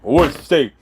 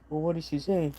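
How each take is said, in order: First: It is said loudly and firmly. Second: It is said quietly and low.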